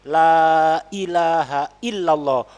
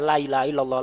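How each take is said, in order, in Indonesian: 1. Hamzahnya diucapkan dengan jelas dan tegas. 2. Hamzahnya kabur dan menyambung begitu saja. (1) "hamzahnya ditahqiq. Jadi ditampakkan, diperjelas hamzahnya"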